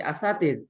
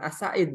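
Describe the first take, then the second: First: The middle consonant is a t sound. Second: The middle consonant is a glottal stop. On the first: The speaker calls it right. "tapi asatid. Bukan pakai hamzah tapi pakai ta" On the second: The speaker calls it wrong. "bukan asaid di sini ya"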